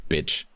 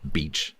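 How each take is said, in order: First: "Bitch" with a short, lax i; short vowel demo. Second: "beach" with a long, tense ee; long vowel demo. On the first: Teacher showing Spanish students the word pair, short vowel demo. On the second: Teacher showing Spanish students the word pair, long vowel demo. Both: Shown as a demonstration. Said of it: "the classic one is bitch and beach".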